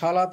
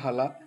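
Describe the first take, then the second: First: The word begins with an 'sh' sound. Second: The word begins with an 'h' sound. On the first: This is the standard form. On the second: This is the Bangali dialect form.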